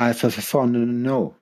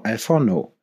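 First: Very slow, stretched Alforno; drawn-out name. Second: Said in the usual way. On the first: Pretend. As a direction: drag out the word slowly. Playful drawn-out show name.

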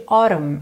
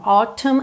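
First: "autumn" with a tapped T, like "orum"; flapped T. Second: First "Autumn" with a clear T; marked T. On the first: Teacher shows the alternative, "autumn" with American flap. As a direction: turn the T of "autumn" into a quick tap. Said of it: "não fez aquele rararã". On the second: Teacher shows the singer's choice, "Autumn" with marked T. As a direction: sound the T crisply in "Autumn". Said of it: "com o T marcadinho mesmo". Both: Shown as a demonstration.

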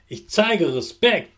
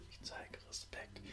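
First: Said in the usual way. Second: Soft whispered repeat; whispered echo. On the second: Shown as a demonstration. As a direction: whisper it back. Repeat-after-me affirmations.

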